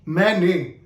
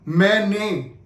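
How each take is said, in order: No difference in how they are said.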